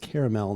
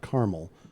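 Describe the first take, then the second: First: The word is said with three syllables. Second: The word is said with two syllables. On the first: The speaker calls it right. "Correct pronunciation uh, is caramel" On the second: The speaker calls it wrong. "not caramel"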